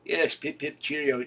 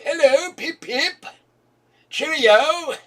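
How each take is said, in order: First: Said in the usual way. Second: Very high, loud, slow posh British; hammed-up upper-class English accent; posh English caricature. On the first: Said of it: "talk like that". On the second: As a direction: toff greeting, much higher and slow. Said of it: "Did anybody ever talk like that".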